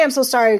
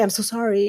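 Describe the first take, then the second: First: Said confidently. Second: A small, softer sorry; shrinking apology. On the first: Shown as a demonstration. A confident apology to a patient, firm. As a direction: apologize without shrinking. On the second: Retold or imitated. Women apologizing and becoming smaller, timid. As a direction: shrink as you say it. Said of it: "it's like they become smaller".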